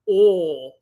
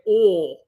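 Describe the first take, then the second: No difference in how they are said.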